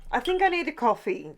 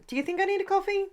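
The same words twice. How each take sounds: First: Said in the usual way. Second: A silly high playful voice asking herself; teasing herself in a high, fast voice; high, fast mock voice. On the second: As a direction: pitch way up and rattle it off quickly. Playful self-question about coffee.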